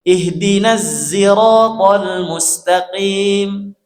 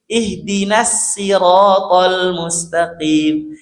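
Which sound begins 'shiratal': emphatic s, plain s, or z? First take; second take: z; plain s. First: The word begins with a z sound. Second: The word begins with a plain s sound. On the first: "mengganti huruf shad jadi huruf za" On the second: "huruf shadnya diganti jadi huruf sin"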